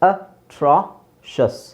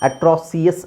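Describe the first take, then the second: First: The ending is one syllable, like 'shus'. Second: The ending is two syllables, like 'see-us'. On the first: The speaker calls it right. "ನಾವು ಶಸ್" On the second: The speaker calls it wrong. "ಇಲ್ಲ, ಅಟ್ರಾಸಿಯಸ್ ಆಗಲ್ಲ"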